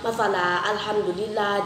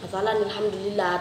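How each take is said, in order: First: The words are read separately, with a stop between. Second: The words are run together with a linking sound.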